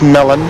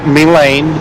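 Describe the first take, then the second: First: The second syllable sounds like 'lun'. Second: The second syllable sounds like 'lane'. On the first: The speaker calls it right. "it is Melon" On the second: The speaker calls it wrong. "it's not Melane"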